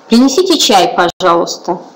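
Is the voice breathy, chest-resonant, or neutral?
neutral. The voice is plain, even and neutral. It is an everyday social request. "Это мы привыкли говорить обычно, это социальная составляющая"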